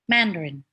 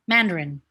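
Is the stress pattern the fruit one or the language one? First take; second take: language; language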